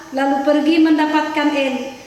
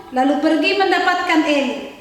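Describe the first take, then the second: No difference in how they are said.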